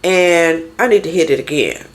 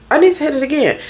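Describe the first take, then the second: First: Said in the usual way. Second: "I need to hit it again" jumps much higher on "need"; higher emphatic repeat. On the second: Real, not acted. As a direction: push "need" up high, driving the point home.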